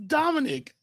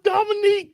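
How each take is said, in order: First: The name ends with a short 'nick' sound. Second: The name ends with a long 'neek' sound. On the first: The speaker calls it right. "This is Dominic" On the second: The speaker calls it wrong. "There is no Dominique"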